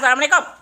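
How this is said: It is said in a sulky, frowning way.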